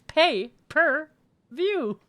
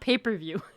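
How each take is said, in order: First: It sounds like three separate words, pay per view. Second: It sounds like the words paper view. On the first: Paying for each viewing. The speaker calls it right. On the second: Looking at paper and viewing it. The speaker calls it wrong.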